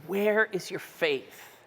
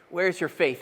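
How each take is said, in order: First: Slow, soft asking; a patient guide's gentle question. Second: Said in the usual way. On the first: Shown as a demonstration. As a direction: ask it tenderly, slowly. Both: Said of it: "the tone of Jesus".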